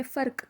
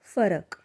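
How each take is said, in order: First: Said in the usual way. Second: फरक with र and क kept apart, a vowel between; Marathi pharak. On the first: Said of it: "जिसे हिंदी में फ़र्क कहते हैं". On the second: Shown as a demonstration. Teacher to learners, फरक with र and क separated. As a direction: sound out फरक as three beats. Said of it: "र और क दोनों का प्रोनाउंसिएशन थोड़ा सेपरेट होता है".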